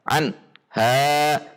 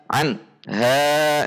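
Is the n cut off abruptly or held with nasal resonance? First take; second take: abrupt; abrupt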